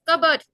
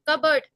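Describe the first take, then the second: The two takes are said the same way.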